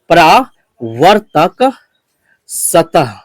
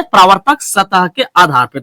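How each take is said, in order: First: परावर्तक drawn out very slowly, then a pause before सतह; slow dictation. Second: Said in the usual way. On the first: Shown as a demonstration. Teacher dictating a term for students to write down, very slow. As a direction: dictate परावर्तक syllable by syllable while writing it on the board. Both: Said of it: "तो हम इस बात को लिखते हैं यहाँ पर".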